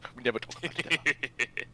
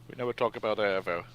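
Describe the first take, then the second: First: It is said in an agitated, animated tone. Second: It is said in a calm, mellow tone.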